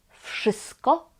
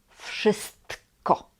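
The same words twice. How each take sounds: First: The word is said quickly with a sound dropped. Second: The word is said carefully with every sound. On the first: This is the easier everyday form. "kiedy mówimy szybko, to mówimy wszystko" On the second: This is the perfect standard form. "wszystko to jest dobra forma, perfekcyjna forma"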